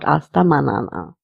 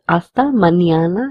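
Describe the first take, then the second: First: The middle consonant is a plain n. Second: The middle consonant sounds like ny. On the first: The speaker calls it wrong. "and not hasta manana" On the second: The speaker calls it right. "we need to pronounce this letter as nia. So it's hasta mañana"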